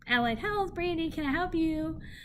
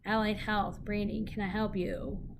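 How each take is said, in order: First: It is said warmly, with a smiling voice. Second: It is said flatly, without a smiling voice. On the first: The caller hears a pleasant, friendly greeting. The speaker calls it right. "Smile when you answer the phone" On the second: The caller hears an unfriendly greeting. The speaker calls it wrong. "there's a big difference"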